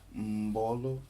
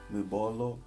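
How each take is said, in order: First: The m nasalizes and joins the following syllable. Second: The m is not blended into the next syllable. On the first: The speaker calls it right. "Lê-se Mbolo" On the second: The speaker calls it wrong. "Não. Mbolo nem Ngongo"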